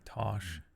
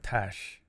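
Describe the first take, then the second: First: The name is said with an American 'ah' vowel. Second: The name is said with a flat 'a' vowel. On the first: This is how Americans say the name. "It's always weird when Americans say Tosh to me" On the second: This is how the speaker says the name. "Because I call her Tash"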